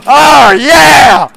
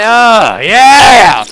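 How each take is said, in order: First: Louder, stretched yeah; bigger shout. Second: Loud shout. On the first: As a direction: belt the yeah out harder. Second, bigger intro shout. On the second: First intro shout. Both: Acted.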